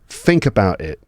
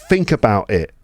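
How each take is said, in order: Both takes have the same delivery.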